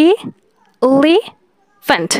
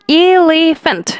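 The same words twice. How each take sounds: First: elephant said very slowly, each syllable pulled apart; syllables drawn out. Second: Said in the usual way. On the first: Shown as a demonstration. Teacher to students, counting mouth openings, very slow. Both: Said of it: "এখানে মুখ তিনবার খুলছে".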